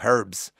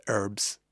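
First: "herbs" with a breathed H at the start; herbs with H sounded. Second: "herbs" said without its H, as URBS; herbs with silent H. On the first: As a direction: say "herbs" as HURBS. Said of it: "playing around with the pronunciation". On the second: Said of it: "the pronunciation of herbs". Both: Shown as a demonstration.

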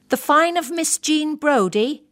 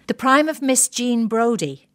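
First: "Fine" said in place of "Prime", a puzzled high question; husband mishearing "Fine" with a rising question; misheard Fine. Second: Said in the usual way. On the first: Retold or imitated. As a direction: ask back "The Fine" with a rising tune.

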